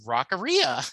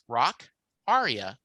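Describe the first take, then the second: First: The ending does not sound like 'aria'. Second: The ending sounds like the word 'aria'. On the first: The speaker calls it wrong. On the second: The speaker calls it right.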